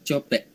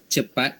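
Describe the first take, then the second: First: It is said in Negeri Sembilan dialect pronunciation. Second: It is said in Standard Malay pronunciation. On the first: "Untuk dialek Negeri Sembilan" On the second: "Untuk bahasa Melayu Standard"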